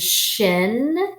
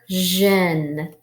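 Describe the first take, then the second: First: The syllable begins with a voiceless sh sound. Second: The syllable begins with a voiced zh sound. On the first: "like at the end of mission" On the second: "like television"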